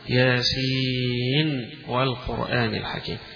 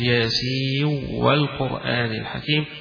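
First: The final n is clearly pronounced before w. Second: The final n merges into the following w. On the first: "سيظهرونها ... اقرؤونها بالنون" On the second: "يدغم فيقول"

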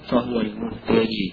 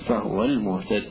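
First: The last word ends with a long ee vowel. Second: The last word ends on a silent consonant. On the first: This is an alternative reading kept in every case. "ويوقف عليها عند يعقوب وفي الحالين" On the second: This is the majority reading when pausing. "فيوقف عليها عند الجمهور بالسكون"

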